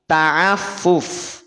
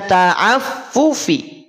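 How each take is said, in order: First: The word ends on the f consonant. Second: The word ends with a short i vowel. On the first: The reading stops on this word. "menjadi ta'affuf" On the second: The reading continues into the next word. "Yang semula dibaca ta'affufi"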